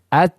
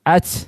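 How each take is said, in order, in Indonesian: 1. Huruf t di akhir hanya dilepas sedikit, dengan hembusan nafas yang ringan. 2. Huruf t di akhir dilepas berlebihan, seperti memantul. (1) "nah, seperti itu. Sedikit saja" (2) "jangan at ... Berlebihan, tidak boleh"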